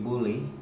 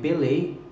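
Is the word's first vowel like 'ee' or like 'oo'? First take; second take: oo; ee. First: The first vowel sounds like 'oo'. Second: The first vowel sounds like 'ee'.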